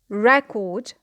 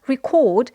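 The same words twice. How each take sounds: First: The stress is on the first syllable. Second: The stress is on the second syllable. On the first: It is used as a noun. "they have the stress on the first syllable" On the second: It is used as a verb. "the stress is on the second syllable because, because it is a verb"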